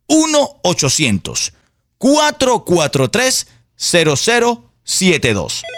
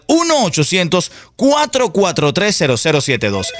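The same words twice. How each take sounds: First: The number is said more slowly. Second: The number is said at normal speed.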